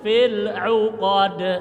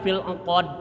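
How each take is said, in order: First: The ain is swallowed with lips rounded. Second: The ain is not swallowed; lips stay unrounded. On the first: The speaker calls it right. "lamun ain ditelan, au. Nah, u monyongkan" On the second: The speaker calls it wrong. "kalau ain enggak ditelan, enggak dimonyongkan jadi engkod"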